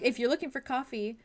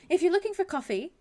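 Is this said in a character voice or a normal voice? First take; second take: normal; character. First: It is spoken in the speaker's own natural voice. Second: It is spoken in a put-on character voice. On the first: The speaker calls it wrong. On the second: The speaker calls it right.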